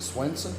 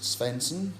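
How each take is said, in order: First: The name starts with an S and W sound. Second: The name starts with an S and V sound. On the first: This is how the family has always said it. "we've always pronounced it Swenson" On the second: This follows the spelling of the name. "pronounces it Svensson for the simple reason uh, it's spelled S V"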